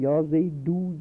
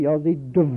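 First: The w sound is made with both lips. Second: The w sound is made with lip and teeth. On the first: "عربی میگیم یا زیدو جل" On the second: "اما فارسی میگه یا زیدو"

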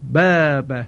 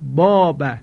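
First: The long a vowel sounds thin and light. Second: The long a vowel sounds full and heavy. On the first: The speaker calls it right. "نازک و کم حجم تلفظ بشه. بخواند باب" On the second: The speaker calls it wrong. "نباید صدای کشیده آ رو در اینجا درشت تلفظ کنه. مثلا بخواند باب باب، این غلط هست"

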